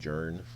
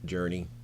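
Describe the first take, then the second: First: The name is said with one syllable. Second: The name is said with two syllables. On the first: "Other people might call it Journ" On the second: "I like to call it Journey"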